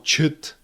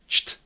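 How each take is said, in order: First: A short vowel sounds between the consonants. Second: The consonants join with no vowel between. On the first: The speaker calls it wrong. "No chut" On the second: The speaker calls it right. "It's cht"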